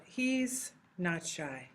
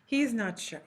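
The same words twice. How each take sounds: First: He's not shy drawn out, every word given its own beat; slow and deliberate. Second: Said in the usual way. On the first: Shown as a demonstration. Teacher repeating the sentence slowly so students hear each word. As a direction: spell it out slowly for the class. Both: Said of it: "when you say that in Spanish".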